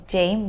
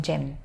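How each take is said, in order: First: "ceğim" as a long "jeh-im"; careful, uncut "ceğim"; full ending. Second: "cem" as one short "jem"; low, brief "cem"; cut-down ending. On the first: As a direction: sound out both vowels of "ceğim". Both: Shown as a demonstration. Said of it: "You cut down".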